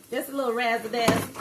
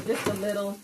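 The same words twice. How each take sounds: First: Catchphrase voice. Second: Said in the usual way. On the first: Retold or imitated. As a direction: toss off a creator's catchphrase with flair. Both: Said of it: "Can't remember what content creator says that".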